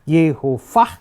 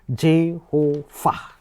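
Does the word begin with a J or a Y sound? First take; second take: Y; J. First: The word begins with a Y sound. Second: The word begins with a J sound.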